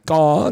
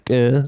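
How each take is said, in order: First: "car" with a long, open ah vowel; imitated pronunciation of car. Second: "care" with an eh vowel, imitating French-accented "car". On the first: Retelling the South African's word, "car" with open ah. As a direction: say "car" as an open "kaah", punched louder. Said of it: "both saying the same word". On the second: Retelling the French guy's mispronunciation, "care" with eh vowel. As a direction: say "care" as a short "keh". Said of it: "a word in his French accent".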